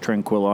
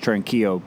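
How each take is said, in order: First: The name is said with an English pronunciation. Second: The name is said with a Spanish pronunciation. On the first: The speaker calls it wrong. "I'm sure it's not pronounced Tranquillo" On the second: The speaker calls it right. "Being a Spanish name, I'm sure it is Tranquillo"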